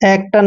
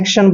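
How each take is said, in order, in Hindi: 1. बीच का व्यंजन सादा 't' ध्वनि है। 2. बीच का व्यंजन 'sh' ध्वनि है। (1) "एक्टन नहीं पढ़ना है" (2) "एक्शन पढ़ना है"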